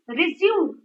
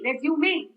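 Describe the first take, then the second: First: The word is said with two syllables. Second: The word is said with three syllables. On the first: It means to restart. "Stress is on zoom" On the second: It means a document of personal details. "It is broken into three"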